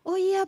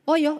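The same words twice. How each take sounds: First: It is said in a soft, gentle voice. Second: It is said in a brusque, blunt voice. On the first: This is the sweet way a husband likes to hear. The speaker calls it right. "istrinya angkat telepon tuh halus" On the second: This sounds like talking to staff. The speaker calls it wrong. "Lah kan berbanding terbalik ya, kalau saya angkat telepon"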